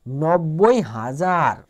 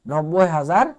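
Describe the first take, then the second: First: Very slow, stretching each syllable of নব্বই হাজার; slow careful reading. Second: Said in the usual way. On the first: Shown as a demonstration. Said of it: "teacher repeats number slowly". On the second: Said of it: "teacher repeats number at normal pace".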